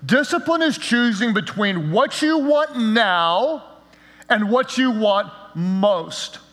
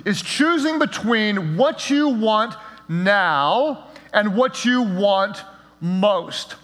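First: Slow definition. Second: Slow, spelled-out repeat. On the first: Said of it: "I'm gonna define it this way". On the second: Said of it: "What is discipline?". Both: Shown as a demonstration.

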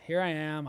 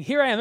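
First: Unwilling volunteer, mumbled; half-hearted. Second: "Here I am" louder and higher, eager; eager volunteer bursting forward; exclamation. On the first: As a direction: offer yourself without enthusiasm. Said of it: "I don't get the idea here that Isaiah was like". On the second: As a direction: call it out like you can't wait. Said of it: "There's an exclamation mark after". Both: Pretend.

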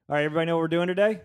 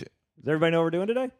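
First: Loud, fast, higher host energy. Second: Loud host call. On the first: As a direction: project it loud and quick. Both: Real, not acted. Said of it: "I'm saying this loud".

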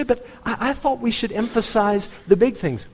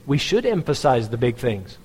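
First: Much higher mimicked objector; protesting churchgoer. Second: Said in the usual way. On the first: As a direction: pitch it up like a churchgoer pushing back.

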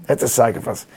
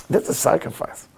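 First: Said in the usual way. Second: Near whisper. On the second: Shown as a demonstration.

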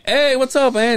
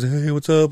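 First: Loud, high-pitched hello; retold eager greeting. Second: Milder greeting in a raised pitch; a lightly voiced aunt saying hello; imitating aunt. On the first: Nephew greeting estranged aunt on call, high loud put-on hello. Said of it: "And I'm like". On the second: Aunt answering nephew on awkward call, lightly imitated greeting. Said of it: "And she goes".

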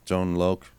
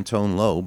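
First: "Loc" said like "loke"; "Loc" rhyming with "oak". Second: "Loc" open-ended, rhyming with "go"; "Loc" without its K. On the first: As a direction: close "Loc" on a clear K sound. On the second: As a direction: say "Loc" with the final K dropped. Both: Real, not acted. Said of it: "Is that, uh, [name]?".

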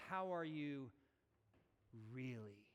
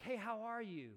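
First: Sincere, probing question. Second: Higher, breezy "how are you"; casual greeting. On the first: Pastor asking past the small talk, sincere and probing. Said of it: "What I'm asking is". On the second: Pastor acting out an everyday greeting, casual and higher. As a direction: toss it off as an everyday hello. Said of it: "answering this question, like". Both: Acted.

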